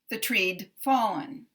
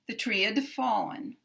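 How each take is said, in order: First: The contraction is a bare d sound. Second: The contraction is a separate id syllable. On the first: "following the rule" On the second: "if we break the rule"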